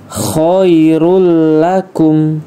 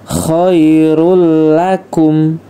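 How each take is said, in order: First: The n sound is dropped and merged into l. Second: The n sound is dropped and merged into l.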